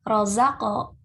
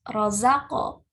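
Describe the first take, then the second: No difference in how they are said.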